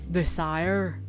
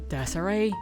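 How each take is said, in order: First: It is said as the ordinary word desire. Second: It is said like the woman's name Desiree. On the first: It is a common noun, not a name. The speaker calls it right. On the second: It sounds like a woman's name. The speaker calls it wrong.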